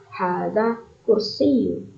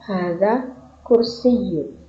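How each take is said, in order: First: Slow model answer. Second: Slower repeat. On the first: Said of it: "Ma haza?". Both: Shown as a demonstration.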